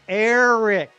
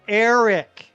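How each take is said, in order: First: The final 'c' sound is clearly pronounced. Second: The final 'c' sound is clearly pronounced.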